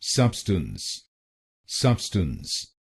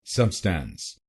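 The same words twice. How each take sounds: First: सब्सटेंस with a short reduced second syllable, SUB-stns; correct pronunciation. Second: सब्सटेंस with a full open "stance" ending, sub-STANCE; the common mistaken सब्सटेंस, second part like stance; wrong pronunciation. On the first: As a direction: say सब्सटेंस as sub-stuns, not stance. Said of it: "इसकी सही pronunciation है". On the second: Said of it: "लेकिन ये pronunciation गलत है". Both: Shown as a demonstration.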